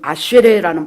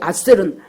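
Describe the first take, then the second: First: The name is said as three syllables, ending in re. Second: The name is said as two syllables, ending in l.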